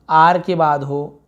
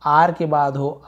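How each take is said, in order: Both takes have the same delivery.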